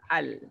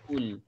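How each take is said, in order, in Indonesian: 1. Suku kata dimulai dengan vokal a. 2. Suku kata dimulai dengan vokal u. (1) "kita kena baca atas al" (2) "Tak boleh juga baca dengan baris depan ul"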